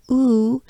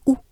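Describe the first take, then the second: First: "oo" drawn out long, the English way; wrong oo. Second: "oo" short and pure, higher; correct French oo. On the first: Teacher showing what to avoid, drawn-out oo. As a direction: stretch "oo" into a long glide. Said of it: "It's not a oo". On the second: Teacher correcting the vowel, short pure oo. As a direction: cut "oo" short, no glide. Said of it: "it's oo". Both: Shown as a demonstration.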